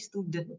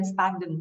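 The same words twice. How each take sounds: First: Student said properly as "stoo-dent"; correct student pronunciation. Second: Student said wrongly as "stah-den"; mispronounced student. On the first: Teacher correcting learner's pronunciation, student said correctly with "oo". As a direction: say "student" with a clear "oo" in the first syllable. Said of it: "ngomongnya bukan student, tapi student". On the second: Teacher showing learners the slip, student mispronounced as "stah-den". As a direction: say "student" with an "ah" in the first syllable. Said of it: "tapi ngomongnya bukan student". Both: Shown as a demonstration.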